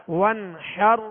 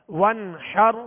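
The two takes are said the same way.

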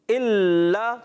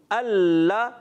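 The two takes are said the same way.

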